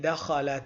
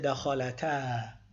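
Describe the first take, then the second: First: The final vowel is cut short into the next word. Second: The word ends with a long a vowel. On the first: The word is joined to the next word. "But when you join, the alif is not pronounced" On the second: The speaker stops after this word. "Only if we stop, we will pronounce it. We'll say دخلتا"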